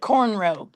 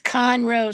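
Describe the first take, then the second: First: The first syllable sounds like 'corn'. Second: The first syllable sounds like 'con'. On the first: This is what locals call the town. "but we call it cornrow" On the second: This is the town's official name. "I know it's Conroe"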